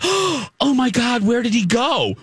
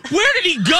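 First: Drawn-out, higher mock bewilderment; imitating dim surprise; dumbfounded girl. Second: High-pitched mock outrage; incredulous re-enacted yell at the TV; retold scream. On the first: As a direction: play the clueless girl, mildly shocked. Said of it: "She acted so dumb". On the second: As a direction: yell it in exasperated disbelief. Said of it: "I screamed at the T V at that moment".

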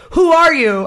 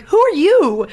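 First: Imitated rude demand, WHO hit high and loud; mock-yelled challenge; retold abrasive yell. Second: High-pitched comeback echoing the question; mock-indignant echo; retold indignant retort. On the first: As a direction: mimic the abrasive passenger, leaning on "Who". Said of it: "like, yelling abrasive". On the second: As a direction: throw it back at him, pitched well up. Driver throws the question back.

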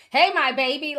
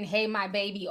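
First: High, loud mock of a doting mother; hey my baby in a loud, high mocking voice; mocking the mom's phrase. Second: Said in the usual way. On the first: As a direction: parody the cloying greeting. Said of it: "I just feel like a". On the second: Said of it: "I've never written".

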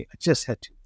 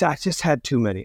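First: Softer repeat, almost under the breath; rueful echo. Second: Said in the usual way. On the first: Real, not acted. Telling podcast host about the drunk night, softer echo. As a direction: drop it down as an aside.

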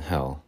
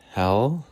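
First: "hell" dropped with a fall. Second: "hell" lifted with a rise; "hell" said rising. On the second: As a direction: lift "hell" upward. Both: Shown as a demonstration. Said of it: "a little bit of inflection there".

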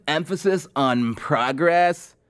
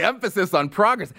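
First: Slow mocking echo of a candidate; imitating a candidate's slow slogan; aging surfer bro. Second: Higher, quicker disbelieving repeat; scornfully questioning it; incredulous scoff. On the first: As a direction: draw out "progress." like a surfer-bro politician. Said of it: "that aging surfer bro from Montana". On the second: Real, not acted. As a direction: throw the slogan back in disbelief. Scoffs at the slogan just mimicked.

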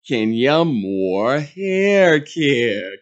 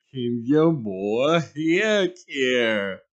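First: Slow, drawn-out ad voice; mock commercial read. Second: Very slow, each word of "Kenya Moore Hair Care" stretched; a hammed-up repeat of the ad slogan; slower mock ad tagline. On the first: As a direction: savour the brand name like a commercial. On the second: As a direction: drag out "Hair Care" like a glossy jingle. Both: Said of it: "filming some promotional commercial".

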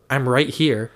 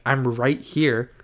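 First: Said in the usual way. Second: RIGHT HERE drawn out slowly; imitated slow, spelled-out "I'm right here"; slow, deliberate repeat. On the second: Repeated after being asked "What?.

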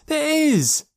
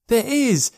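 First: Even higher, shrieking repeat of the protest; child's yell, rising. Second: Put-on higher, louder insistent shout of a small boy; child's yell. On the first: Acted. Boy insists again even more desperately, yelling higher. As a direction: push the second one higher still. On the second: Boy insists his friend is real, yelling. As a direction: protest with all your might. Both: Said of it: "yelled Joe".

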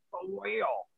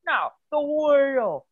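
First: Said in the usual way. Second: Slow, louder "the wheel" with a higher start; impatient stress. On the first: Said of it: "He's like". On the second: Retold or imitated. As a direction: spell out "the wheel" to someone slow. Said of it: "And he's like".

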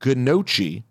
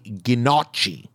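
First: "gnocchi" as guh-NOH-chee, long O; slow "gnocchi", said guh-noh-chee; Peter's mispronunciation. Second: "gnocchi" as ghih-NOTCH-ee in mock Scottish; drawn-out fake Scottish "gnocchi", short O; badly faked Scottish ghih-notch-ee; bad Scottish accent. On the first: Retold or imitated. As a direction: sound the G and ch in "gnocchi", with an OH. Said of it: "While Peter says gnocchi". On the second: Shown as a demonstration. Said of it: "with my Scottish accent, I say".

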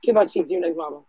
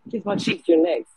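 First: Calling out. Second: Raised voice calling a name across the room; calling out louder. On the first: Host calling next speaker up. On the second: Host calling the next speaker, loud call-out. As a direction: call them up, louder the second time. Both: Real, not acted.

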